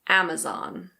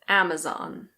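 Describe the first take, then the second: First: It is said with an American accent. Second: It is said with an American accent.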